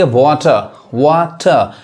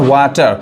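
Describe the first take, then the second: First: वाटर with silent r, ending in a plain schwa; British pronunciation. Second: वाटर with the final r fully sounded; American pronunciation. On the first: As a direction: say वाटर the British way, "waw-tuh". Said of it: "आर ये नहीं पढ़ाएगा British English में". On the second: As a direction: say वाटर the American way, "waa-tar". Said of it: "America में क्या पढ़ते हैं". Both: Shown as a demonstration.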